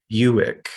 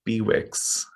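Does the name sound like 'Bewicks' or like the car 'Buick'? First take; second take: Buick; Bewicks. First: The name sounds like the car name Buick. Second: The name is said as two parts, be-wicks. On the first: This is how the man himself pronounced his name. The speaker calls it right. "like the car" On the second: This is how it was commonly said growing up. The speaker calls it wrong. "we always said Bewix"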